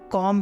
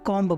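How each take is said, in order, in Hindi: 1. शब्द m की आवाज़ पर खत्म होता है, b नहीं। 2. शब्द के अंत में एक सुनाई देने वाली b की आवाज़ है। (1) "यहाँ पे हम कॉम बोलेंगे" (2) "ना कि उसको कॉम्ब बोलेंगे"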